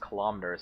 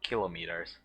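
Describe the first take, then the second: First: The stress is on the second syllable. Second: The stress is on the first syllable. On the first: This is how the word is usually said. "why it's pronounced kilometers" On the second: This would match centimeters and millimeters. "and not kilometers"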